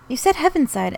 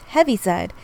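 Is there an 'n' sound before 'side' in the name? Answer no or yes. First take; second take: yes; no. First: The name has an 'n' sound before 'side'. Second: The name has no 'n' sound before 'side'. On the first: The speaker calls it wrong. "You said Heavenside" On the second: The speaker calls it right. "the correct term is Heaviside"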